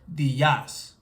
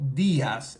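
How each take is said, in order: First: The stress is on the second syllable. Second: The stress is on the first syllable. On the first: The speaker calls it wrong. "instead of" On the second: The speaker calls it right. "we have to stress this E when we are pronouncing it"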